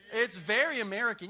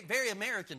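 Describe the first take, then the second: First: Very luider uitgeroepen en dalend; stress on very. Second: Said in the usual way. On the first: Real, not acted. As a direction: luid nadruk op very.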